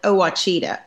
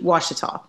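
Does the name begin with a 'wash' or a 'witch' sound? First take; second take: witch; wash. First: The first syllable sounds like 'witch'. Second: The first syllable sounds like 'wash'. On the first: The speaker calls it wrong. "everyone always calls it Ouachita" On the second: The speaker calls it right. "it's actually Ouachita"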